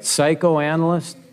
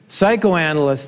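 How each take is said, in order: First: The word is said slowly. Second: The word is said quickly.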